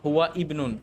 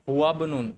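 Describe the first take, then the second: First: A glottal stop separates the two words. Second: The words run together with no glottal stop. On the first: The speaker calls it wrong. "নট" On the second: The speaker calls it right. "এই হামজাটাকে স্কিপ করে গেলাম"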